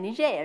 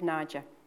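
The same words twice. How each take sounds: First: The name is pronounced the French way. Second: The name is pronounced the English way. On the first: "we speak French there. That's why we say Niger" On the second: "instead of Niger"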